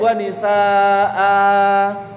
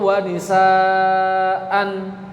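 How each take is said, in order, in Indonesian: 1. Vokal akhir ditahan selama empat ketukan. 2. Kata ini berakhir dengan bunyi n. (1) "Atau dibaca di empat sekalian ... tidak boleh" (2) "atau wanisaan juga tidak boleh"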